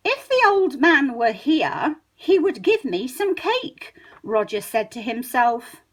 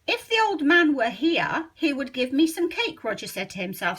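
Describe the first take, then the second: First: The formal book version, unhurried; slow careful reading. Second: Said in the usual way. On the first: Shown as a demonstration. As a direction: read it slowly, every word full. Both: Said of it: "how we would speak on paper".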